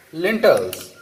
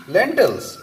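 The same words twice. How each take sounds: First: "lentils" slipped to "lintels", first vowel like German Linsen; German-tinged slip. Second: Said in the usual way. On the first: Real, not acted. Cook mixing German and English, "lentils" mispronounced with an i. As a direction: say "lentils" with a short i in place of the first e. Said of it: "mixing German and English together". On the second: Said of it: "what's happening to me?".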